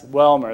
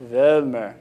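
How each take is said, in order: First: Welmer with an English W, swallowed in the throat; throaty American pronunciation. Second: Welmer with a V sound, at the tip of the mouth; German pronunciation. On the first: Showing how the family says its last name, Welmer spoken from the throat. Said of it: "it's spoken from the throat". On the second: Correcting the American version for the audience, Welmer slow with a German V. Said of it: "spoken from the tip of the mouth". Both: Shown as a demonstration.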